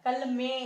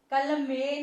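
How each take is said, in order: First: कलमे ending in a nasalised "en"; nasal ending. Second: कलमे with a plain open "e" at the end; कलमे without any nasal on the last vowel; non-nasal ending. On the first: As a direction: say कलमे as kal-men, last vowel through the nose. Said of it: "ए की आवाज आ रही है". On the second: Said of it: "नहीं हो रहा है". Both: Shown as a demonstration.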